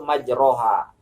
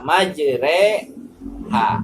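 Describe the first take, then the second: First: The vowel after the r is a plain open a. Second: The vowel after the r is tilted toward e. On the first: The speaker calls it wrong. "menurut kaidah ilmu tajwid, ini harus dibaca majroha" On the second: The speaker calls it right. "tapi ... imalah ... memiringkan harakat fathah kepada bunyinya harakat kasroh"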